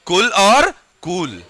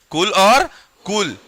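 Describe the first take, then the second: First: कुल short, कूल with a long drawn oo; slow demo of कुल versus कूल; short u then long u. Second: कुल clipped short, कूल stretched long; कुल short, कूल long, said slowly; short u then long u. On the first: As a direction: contrast कुल and कूल slowly. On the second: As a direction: repeat the contrast of कुल and कूल. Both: Shown as a demonstration. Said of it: "कुल कहते हो या कूल कहते हो".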